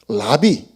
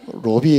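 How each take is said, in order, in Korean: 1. 첫 모음은 ah 소리가 납니다. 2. 첫 모음은 oh 소리가 납니다.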